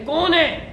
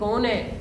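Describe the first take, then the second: First: It is said in a loud, forceful voice. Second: It is said in a soft, gentle voice. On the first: The speaker calls it right. "बड़े जोरदार आवाज में कहना चाहिए" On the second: The speaker calls it wrong. "ऐसे नहीं कहना चाहिए"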